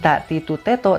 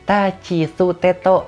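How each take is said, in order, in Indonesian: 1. Suku kata tengah terdengar seperti ti dan tu. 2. Suku kata tengah terdengar seperti chi dan tsu. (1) "bukan ta titu teto" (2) "tapi ta citu teto"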